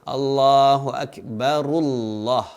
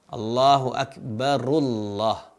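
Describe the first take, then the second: The two takes are said the same way.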